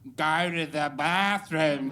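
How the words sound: It is said in an exaggerated, mocking accent. Others mimic the speaker's accent. "they do an impression of"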